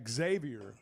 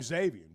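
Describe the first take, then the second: First: The name starts with an 'ex' sound. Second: The name starts with a plain z sound. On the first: The way the name's owner prefers it. "but he does. And uh, it's Xavier" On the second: The usual way most people say the name. "You don't actually pronounce the X"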